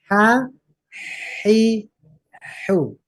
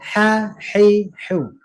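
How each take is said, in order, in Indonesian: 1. Suku kata itu diucapkan lebih lambat. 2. Suku kata itu diucapkan lebih cepat.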